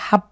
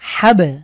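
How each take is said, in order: First: The final b stops flat with no bounce. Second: The final b is released with an echoing bounce. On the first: The speaker calls it wrong. "আমরা হাব পড়ব না" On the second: The speaker calls it right. "ধাক্কা দিয়ে পড়লে হবে"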